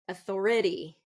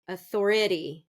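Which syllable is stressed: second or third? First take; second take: third; third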